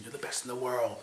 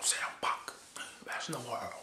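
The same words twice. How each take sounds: First: Said in the usual way. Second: Soft unvoiced whisper into his ear; whispered flattery. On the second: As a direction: breathe it like a secret. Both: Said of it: "Paul Heyman saying".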